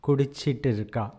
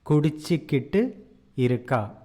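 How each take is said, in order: First: The verb is said quickly with a syllable dropped. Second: Every syllable of the verb is pronounced fully.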